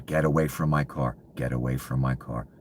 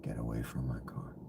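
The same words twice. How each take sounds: First: A mild mock yell, barely raised; retelling a shout at people by his car; retold yell. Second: Soft, breathy menacing whisper, much softer; echoing his own shout as a quiet threat. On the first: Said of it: "I'm yelling". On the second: Pretend. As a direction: hiss the order under your breath. Repeats the order, now whispered.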